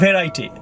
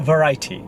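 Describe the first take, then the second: First: "variety" with a full first vowel, vair-AI-ty; mispronunciation. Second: "variety" with a weak first vowel, vuh-RAI-ty; correct pronunciation. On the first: Teacher showing what not to say, mispronounced. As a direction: say "variety" starting with "ve". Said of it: "Not variety". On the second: Teacher correcting the word for learners, correct pronunciation. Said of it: "With the stress, second syllabus". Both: Shown as a demonstration.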